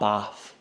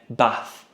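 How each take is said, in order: First: The word is said in a southern English accent. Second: The word is said in a northern English accent. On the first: This is how people from elsewhere say it. "not bath" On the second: This is how people from the north say it. "I'm from up north, we say bath"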